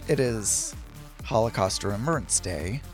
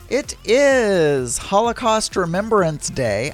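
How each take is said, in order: First: It is said in a solemn, serious tone. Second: It is said in a cheerful, upbeat tone.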